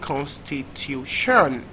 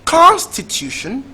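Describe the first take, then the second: First: The stress is on the fourth syllable. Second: The stress is on the first syllable.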